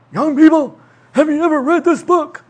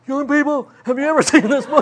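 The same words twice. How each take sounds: First: Put-on higher, louder doddering old teacher; hammed-up elderly professor. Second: Put-on higher, laughing old-teacher voice; lightly hammed elderly preacher, laughing; mock old man. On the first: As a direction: imitate the beloved old guest speaker. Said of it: "and he would say". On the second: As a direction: play himself as the old guy now. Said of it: "Now I'm one of those old guys".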